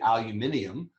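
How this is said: It is said in the British way, five syllables.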